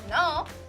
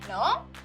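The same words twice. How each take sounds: First: The vowel is long and glides while sounding. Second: The vowel is long and glides while sounding.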